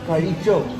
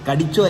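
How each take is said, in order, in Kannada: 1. ಮಧ್ಯದ ವ್ಯಂಜನ ಮೂರ್ಧನ್ಯ zh ಶಬ್ದ. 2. ಮಧ್ಯದ ವ್ಯಂಜನ ಗಟ್ಟಿಯಾದ d ಶಬ್ದ.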